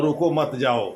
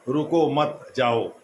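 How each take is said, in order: First: "रुको मत जाओ" run together with no break after मत; comma shift. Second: "रुको मत", short pause, then "जाओ"; slow "रुको मत", comma, "जाओ"; pause after मत. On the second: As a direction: break the phrase after मत, setting जाओ apart. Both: Shown as a demonstration. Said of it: "केवल कॉमा का हेर फेर".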